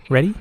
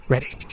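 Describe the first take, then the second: First: READY lifted into a rising question. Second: READY said softer as a statement; confirming answer. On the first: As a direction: ask "Ready?" with the pitch climbing at the end. Question before the experiment starts. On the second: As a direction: answer "Ready." quietly, without the questioning lift. Reply confirming readiness. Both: A narrator's reading.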